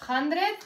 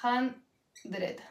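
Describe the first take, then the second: First: "Hundred" in one piece, rising at the end; higher, joined-up "Hundred" with a lift; whole word. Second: "Hundred" as hun... dred, pause between; soft, separated syllables of "Hundred"; split into syllables. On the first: Teacher repeating hundred for students, whole word with rising tune. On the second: Teacher breaking down hundred for students, syllable by syllable. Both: Shown as a demonstration. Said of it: "esto sería hundred".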